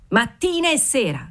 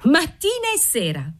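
First: High-pitched call without real volume; mock shriek. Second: Put-on much higher, girlish call with contained volume; shrill echoed cry. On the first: Waiter calling from the threshold, mild shriek. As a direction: call it gaily from the doorway, voice raised in pitch. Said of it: "strillò dalla soglia il garzone". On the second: Seamstress echoing the waiter, high restrained shriek. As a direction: pitch it right up, crying back in triumph. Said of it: "strillò Antonetta". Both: A narrator's reading.

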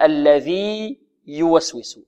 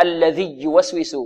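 First: الذي drawn out slowly, then يوسوس apart; slow long ī in الذي with a clean start on يوسوس; separated ya. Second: الذي يوسوس fused with a doubled y; wrongly merged ya. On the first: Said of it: "لا تدغم". (الذي يوسوس بلا إدغام) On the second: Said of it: "خطأ، لا تدغم". (الذي يوسوس بإدغام خاطئ) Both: Shown as a demonstration.

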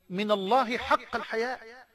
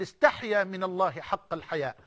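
First: بالراحة, ببطء وتأنٍّ على "الحياء"; يمدّ "من الله حق الحياء" في تمهّل; slowly. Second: Said in the usual way. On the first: Shown as a demonstration. (ببطء كما طلب) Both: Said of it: "بالراحة كده يا مولانا".

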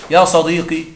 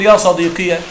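First: يا صديقي with a short final "-i" and no added "ya"; يا صديقي said as "ya sadiqi"; short kasra ending. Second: يا صديقي with the final ya said long and open as "sadiqiya"; يا صديقي voiced "ya sadiqiya"; vocative with ya ending. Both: Shown as a demonstration. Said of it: "تقول".

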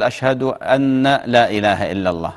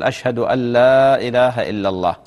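First: أن لا said as "anna laa"; faulty shahada with أن لا unmerged as "anna laa"; wrong sounded noon. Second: أن لا said as "allaa", no noon; proper shahada with أن لا assimilated to "allaa"; correct merged noon. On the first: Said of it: "ما يقول". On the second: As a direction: merge أن لا into a long "al-laaa ilaaha". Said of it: "لا، يقول". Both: Shown as a demonstration.

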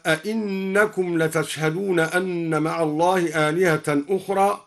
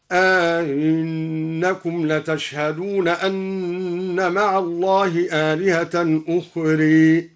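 First: Said in the usual way. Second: أئنكم with eased second hamza and a long a between, أخرى ending toward ukhre; Duri reading. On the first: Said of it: "وأمال أخرى هكذا". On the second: Shown as a demonstration. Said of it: "سهل الدوري الهمزة الثانية ... وأمال أخرى هكذا". (تسهيل الهمزة الثانية وإمالة أخرى)

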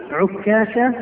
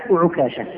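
First: Doubled, held k in عكاشة; تشديد الكاف. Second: Single, short k in وعكاشة; تخفيف الكاف. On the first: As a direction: stress the middle of عكاشة with a geminated kaf. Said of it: "ويصح في اسم هذا الصحابي الوجهين". (عكاشة بكاف مشددة) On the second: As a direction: say وعكاشة with a light, undoubled kaf. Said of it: "والعكاشة بالتخفيف". (وعكاشة بكاف مخففة غير مشددة) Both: Shown as a demonstration.

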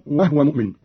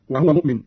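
First: "وهو" as "wahwa" before "مؤمن"; vowelless ha. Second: Said in the usual way. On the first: Shown as a demonstration. Teacher repeats for Qalun, "وهو" as "wahwa". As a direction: drop the vowel after the ha in "وهو". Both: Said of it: "بالإسكان أيضًا".

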